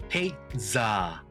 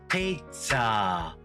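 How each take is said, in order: No difference in how they are said.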